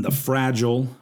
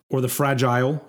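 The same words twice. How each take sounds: First: "Fragile" said FRAJ-ul; "Fragile" with a short schwa end; American Fragile. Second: "Fragile" said FRAJ-ile; "Fragile" with a long eye sound at the end; British Fragile. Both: Shown as a demonstration. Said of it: "depending on where you're from".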